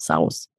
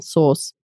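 First: The vowel sounds like 'ow' in cow. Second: The vowel sounds like 'or' in source. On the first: The speaker calls it wrong. "not sauce" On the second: The speaker calls it right. "it's actually pronounced exactly the same, sauce"

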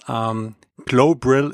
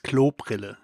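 First: It is said with an English-speaker pronunciation. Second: It is said with a native German pronunciation. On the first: This is how English speakers say it. The speaker calls it wrong. "Every English-speaking guy would say Klobrille" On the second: This is how German speakers say it. The speaker calls it right. "For my German listeners"

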